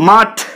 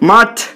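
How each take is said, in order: First: The final t is said with a breath puff. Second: The final t is said with a breath puff.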